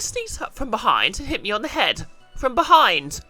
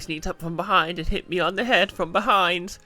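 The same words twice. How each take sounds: First: It is read in a put-on character voice. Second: It is read in the speaker's ordinary voice. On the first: The speaker calls it right. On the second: The speaker calls it wrong.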